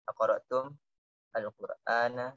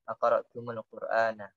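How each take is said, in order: First: The m is stopped before the next word. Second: The m links with a vowel into the word. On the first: "Yang di sini kan pertama diam" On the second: "Kayak gitu"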